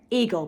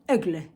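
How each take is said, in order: First: It is said like the English word eagle. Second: It is said with a French accent. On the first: The speaker calls it wrong. "I've always called the brand Eagle" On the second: The speaker calls it right. "I will be pronouncing it with my French accent"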